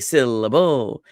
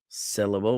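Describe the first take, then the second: First: The stress is on the first and last syllables. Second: The stress is on the first syllable only. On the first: "with the emphasis in the beginning and the end, but not in the middle" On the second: "with the emphasis on sit"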